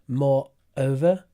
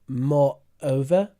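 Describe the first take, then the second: The two takes are said the same way.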